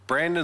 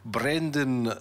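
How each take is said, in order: First: The name is said in the speaker's usual accent. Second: The name is said in a South African accent. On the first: "I butchered that for sure" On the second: "try it with a South African accent"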